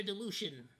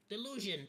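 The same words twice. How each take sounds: First: Real Spanish-accented slip on "delusion", hushing the middle to "delushon". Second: Said in the usual way. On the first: Real, not acted. Streamer's metaphor trips on his own accent, Spanish accent. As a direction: say "delusion" as "de-LOO-shun", Spanish accent slipping out. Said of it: "my frickin' Spanish accent is coming out".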